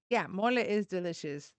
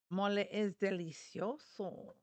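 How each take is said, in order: First: Said in the usual way. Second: "delicioso" said slowly the Spanish way; Spanish word. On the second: Shown as a demonstration.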